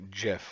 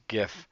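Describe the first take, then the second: First: The word begins with a j sound. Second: The word begins with a hard g sound. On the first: "he said it's actually Jif, like the peanut butter" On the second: "I always thought it was a GIF"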